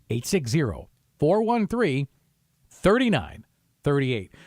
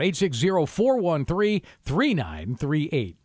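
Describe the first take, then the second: First: The number is read more slowly. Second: The number is read at normal speed.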